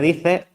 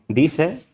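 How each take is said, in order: First: The middle consonant is a th sound. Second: The middle consonant is an s sound. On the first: This is the standard Castilian form. "en lugar de dice" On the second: This is how rural Andalusian people spoke. "presencia de seísmos como en dice"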